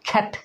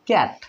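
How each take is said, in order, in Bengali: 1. প্রথম k টিতে জোরালো বাতাসের ঝলক আছে। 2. প্রথম k টি অল্পপ্রাণ, মুখ থেকে বাতাসের ঝলক বের হয় না। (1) "ক কে যে খ বানিয়ে দিব" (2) "আমরা আগে এটা কি বলতাম"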